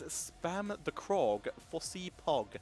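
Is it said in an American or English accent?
English. It is said in an English accent.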